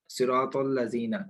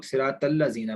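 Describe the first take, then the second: First: सिरातल लजीना with thick raa and heavy rounded "taw"; सिरातल लजीना as "siraw-tawl-lazeena"; correct heavy recitation. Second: सिरातल लजीना with a thin, light t; सिरातल लजीना as "siraa-tal-lazeena"; common mispronunciation. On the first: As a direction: recite सिरातल लजीना slowly, r and t full and dark. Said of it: "उसको बहुत से लोग सिरातल लजीना पढ़ते हैं". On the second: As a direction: say सिरातल लजीना with flat "taa" for the heavy "taw". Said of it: "अगर आप ता पढ़ेंगे तो गलत". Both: Shown as a demonstration.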